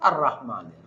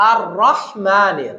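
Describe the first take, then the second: First: আর রহমানের low and quiet with a plain ha; wrong rahman. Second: আর রহমানে slow with throat ha; correct rahman. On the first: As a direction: drop রহমানের soft with an ordinary ha. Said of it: "আমি মাখরাজের ভুল করলাম". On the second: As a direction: draw out রাহ from the throat. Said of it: "এখানে বড় হা". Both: Shown as a demonstration.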